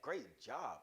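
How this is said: It is said warmly, with real enthusiasm. The praise is sincerely meant. The speaker calls it right. "Really mean it"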